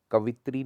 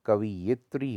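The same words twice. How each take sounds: First: कवित्री as quick "ka-vi-tri"; wrong dropped syllable. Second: कवियित्री as "ka-vi-yi-tri"; correct y syllable. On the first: Teacher showing the error, कवित्री without its y syllable. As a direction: skip the yi in कवित्री. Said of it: "नहीं होता". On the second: Teacher saying ya belongs here, कवियित्री with yi sounded. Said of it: "यहाँ पे या लगना चाहिए". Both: Shown as a demonstration.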